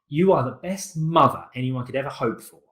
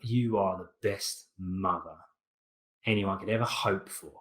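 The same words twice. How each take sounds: First: It is said sincerely and warmly. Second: It is said sarcastically and mockingly.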